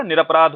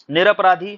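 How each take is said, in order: First: निरपराध without final ई, falling; correct form. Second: निरपराधी said with final ई; wrong form. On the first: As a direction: end निरपराध cleanly on ध. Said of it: "क्या होता है आपका". (सही शब्द निरपराध, बिना ई के) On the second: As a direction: demonstrate the mistaken निरपराधी. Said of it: "निरपराधी जैसा कोई शब्द नहीं". (गलत शब्द निरपराधी) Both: Shown as a demonstration.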